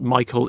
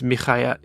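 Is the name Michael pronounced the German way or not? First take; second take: non-German; German. First: The name is said in a non-German way. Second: The name is said in the German way. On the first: The speaker calls it wrong. "Michael in German is not is not Michael" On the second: The speaker calls it right. "It's Michael"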